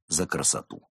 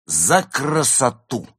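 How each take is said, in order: First: Said in the usual way. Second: High, loud, slow ringing toast; exclaimed toast. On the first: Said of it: "Они выпили за красоту". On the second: Acted. Tipsy actress raising a glass to beauty, exclaimed. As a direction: cry it out with drawn-out grandeur. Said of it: "воскликнула Изольда".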